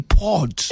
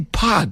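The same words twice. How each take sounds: First: It is said in a non-American accent. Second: It is said in an American accent. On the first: "we say pod" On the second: "you say pod"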